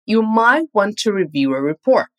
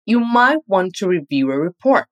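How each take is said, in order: First: "might" lifted and leaned on, rest of the line lighter; stress on might. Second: "might" lifted and leaned on as the key word; stress on might. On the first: Teacher modelling the stress on "might" for practice. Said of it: "capriche na entonação do might". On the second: Teacher showing the advice stress on "might". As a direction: give "might" the weight of a gentle suggestion. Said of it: "nós vamos dar uma ênfase maior à palavra might". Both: Shown as a demonstration.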